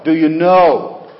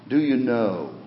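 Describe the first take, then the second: First: "know" punched out loud and long; emphatic stress on know. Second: "know" held out and falling, at normal volume; stress on know. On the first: Preacher pressing the congregation on being saved, loud stress on "know". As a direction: hit "know" hard, much louder. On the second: Preacher asking the congregation about salvation, measured stress on "know". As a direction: lean on "know" as a searching question. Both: Real, not acted. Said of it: "I emphasize the word know".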